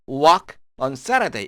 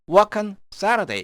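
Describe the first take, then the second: First: The words work and on are said separately. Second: The words work and on run together.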